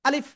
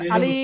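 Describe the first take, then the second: First: The vowels in the word are kept short. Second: A vowel in the word is drawn out. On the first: The speaker calls it right. "আলিফ অক্ষরে কোনো টেনে পড়া যাবে না।" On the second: The speaker calls it wrong. "ভুল।"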